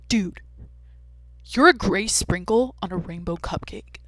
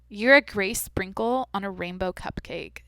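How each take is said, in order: First: It is said super nonchalantly, like a bro. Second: It is read out in a normal tone.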